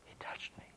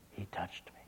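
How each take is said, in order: First: Hushed whisper, overcome. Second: Even softer, fading whisper; whispered again. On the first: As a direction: breathe it out, awed. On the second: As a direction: let the words almost vanish. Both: Retold or imitated. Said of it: "looked up through her tears".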